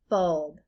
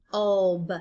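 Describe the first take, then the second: First: Said in the usual way. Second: "Bulb" as a short B, pause, then ULB; sounded out. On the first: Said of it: "break it into syllables like this". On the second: Shown as a demonstration. Teacher sounding out for learners, "Bulb" in separated sounds. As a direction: break the B away from the rest of "Bulb". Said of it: "saying all the sounds individually".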